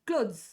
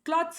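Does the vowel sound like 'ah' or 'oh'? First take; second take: oh; ah. First: The vowel sounds like 'oh'. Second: The vowel sounds like 'ah'. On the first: The speaker calls it right. "So ಕ್ಲೋತ್ಸ್ ಅನ್ನ ಈ ತರ ಓದ್ಬೇಕು" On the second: The speaker calls it wrong. "ಕ್ಲಾತ್ಸ್ ಅಲ್ಲ"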